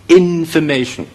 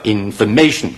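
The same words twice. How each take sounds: First: The first syllable has a secondary stress. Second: The first syllable has no secondary stress. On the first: The speaker calls it right. "個次重音咧喺個頭嗰度" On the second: The speaker calls it wrong. "其實係錯咗嘅"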